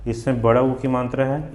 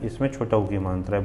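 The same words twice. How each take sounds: First: बड़ा pushed higher and louder; contrastive stress. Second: Said in the usual way. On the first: Shown as a demonstration. Teacher points out the difference, stressing बड़ा. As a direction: punch बड़ा, lifting the line to a rise. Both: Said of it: "इसमें क्या है अंतर".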